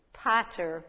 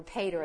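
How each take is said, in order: First: "Pater" with a first vowel like "ah"; alternative pronunciation. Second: "pater" with a first vowel like "pay"; alternative pronunciation. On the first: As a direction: say "Pater" as PAH-ter. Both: Shown as a demonstration. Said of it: "I think is how you say it".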